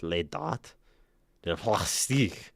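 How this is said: It is said with a put-on French accent.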